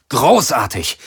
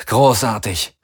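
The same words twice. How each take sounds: First: Sarcastic exclamation. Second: Dry bitter "Großartig" with a falling end; sarcastic. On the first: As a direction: bark "Großartig!" in frustration. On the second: Pilot cursing the dead weapons, sarcastic "Großartig". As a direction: say "Großartig" flat and sour. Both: A narrator's reading. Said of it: "rief er".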